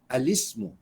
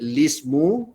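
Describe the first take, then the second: First: The word starts with an a vowel before L. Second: The word starts directly with an L sound. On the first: "ataupun alismu" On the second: "Sama ada kita nak baca lismu"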